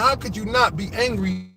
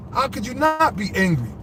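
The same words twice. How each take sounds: First: "How" punched at the start, the rest runs on; stress on how. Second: "not" punched, the word "angry" falls; stress on not. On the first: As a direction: hit "How" hard in "How could you not be angry". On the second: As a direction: lean hard on "not" in "How could you not be angry?". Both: Acted. Repeats the question twice.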